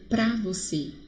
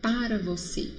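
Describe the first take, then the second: First: The word 'para' is shortened to one syllable. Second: The word 'para' is said with both syllables. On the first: This is casual everyday speech. "eu estou usando a linguagem do dia a dia mais informal" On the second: This is the formal standard form. "o correto é para você"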